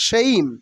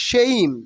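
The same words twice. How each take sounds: The two takes are said the same way.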